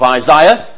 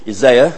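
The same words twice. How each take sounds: First: It is said in a non-North American pronunciation. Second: It is said in a North American pronunciation.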